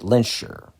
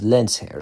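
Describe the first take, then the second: First: The surname is said with an anglicized pronunciation. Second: The surname is said with German pronunciation. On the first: The speaker calls it wrong. "most X-Men adaptations have characters... pronounce it Lenscher" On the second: The speaker calls it right. "The correct German pronunciation is Lenzherr, so I'm pronouncing it correctly here"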